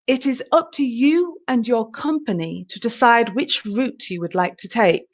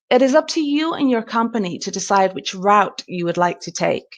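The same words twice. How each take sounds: First: It is spoken in a British accent. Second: It is spoken in an American accent. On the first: "in a British sentence" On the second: "The American"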